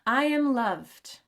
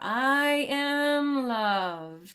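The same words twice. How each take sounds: First: The phrase is spoken at a normal pace. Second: The phrase is spoken very slowly and drawn out.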